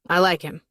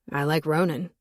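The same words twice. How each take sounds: First: Said in the usual way. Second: Flat, even monotone delivery. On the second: A narrator's reading. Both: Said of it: "he said in a monotone voice".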